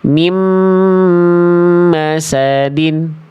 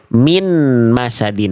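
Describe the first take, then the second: First: The n sound is merged into the m. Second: The n sound is pronounced clearly before m. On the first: The speaker calls it right. "Harusnya bunyi N ini dileburkan ke huruf mim" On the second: The speaker calls it wrong. "kesalahannya karena nunnya masih ada"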